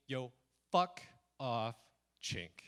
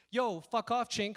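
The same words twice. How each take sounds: First: Retold insult. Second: Loud, higher, run together; not quiet. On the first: Bike thief's insult retold to the audience, deliberate and spaced out. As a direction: set each word apart with pauses. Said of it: "then he said to me". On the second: Retold or imitated. What was actually heard from the thief, loud insult. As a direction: throw the insult out in one loud burst. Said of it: "it wasn't quiet at all".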